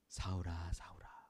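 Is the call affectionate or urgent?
affectionate. It is said in a warm, affectionate way.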